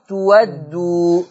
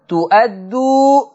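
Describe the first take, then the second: First: The word has a w sound in the middle. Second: The word has a glottal stop in the middle. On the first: "تقرأ تودوا" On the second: "ادي الهمزة بتاعت تؤدوا"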